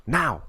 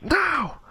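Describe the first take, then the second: First: Sharply raised pitch on a mock command; mock teacher's order. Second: Very high-pitched screamed command; mock teacher scream. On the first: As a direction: order the kid out, voice lifted. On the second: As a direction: scream it like a teacher at breaking point, acted out. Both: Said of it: "She just screams at him".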